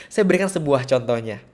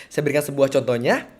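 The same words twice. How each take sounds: Both takes have the same delivery.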